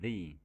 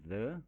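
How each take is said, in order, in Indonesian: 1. Vokalnya adalah bunyi 'ee' yang panjang. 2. Vokalnya adalah bunyi 'uh' yang pendek dan lemah. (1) "Kemudian kita ucapkan the di depan kata yang huruf awalnya bersuara vokal" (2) "Kita ucapkan the di depan kata yang huruf awalnya bersuara konsonan"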